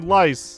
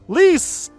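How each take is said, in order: First: The vowel sounds like the one in 'ice'. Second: The vowel sounds like the one in 'ease'. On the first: "some folks might prefer lice over lease" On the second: "some folks might prefer lice over lease"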